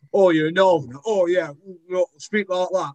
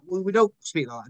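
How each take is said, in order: First: Hammed-up mock Northerner, pitched high; over-dramatized Northern accent. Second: Said in the usual way. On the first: Actor mimicking people's bad impressions of Northerners, over-dramatized Northern accent. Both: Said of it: "they're always over-dramatized versions".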